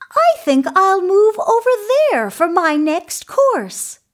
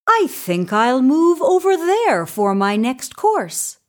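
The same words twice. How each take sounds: First: Very high, quick little goat voice; small creature's high-pitched voice. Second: Lightly voiced goat, somewhat high; a hint of creature voice; middle-sized goat. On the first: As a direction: pipe up as a tiny goat, loud and high. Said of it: "the little Billy Goat Gruff". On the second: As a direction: raise the pitch moderately for a medium goat. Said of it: "the middle-sized Billy Goat Gruff". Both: A narrator's reading.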